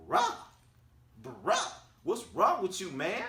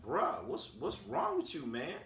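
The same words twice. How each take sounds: First: Very high, loud incredulous "bruh"; exasperated disbelief. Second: Mild disbelief. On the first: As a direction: squeal it in mock disbelief, pausing between the bruhs. Repeats reaction, far more exasperated. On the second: First retold reaction to the outburst. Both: Retold or imitated.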